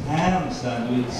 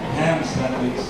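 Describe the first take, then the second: The two takes are said the same way.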